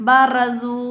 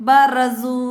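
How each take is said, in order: The two takes are said the same way.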